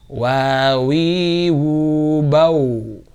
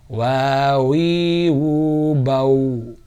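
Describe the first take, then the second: Both takes have the same delivery.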